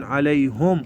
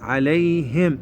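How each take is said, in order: First: عليهم as "alayhum"; imitating the error, عليهم with "u"; mistaken damma. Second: عليهم as "alayhim"; careful model, عليهم with "i"; kasra on ha. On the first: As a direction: say "hum" at the end of عليهم. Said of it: "أكو بعضهم يقولون". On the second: Shown as a demonstration. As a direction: say "him" at the end of عليهم. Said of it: "الهاء مكسورة".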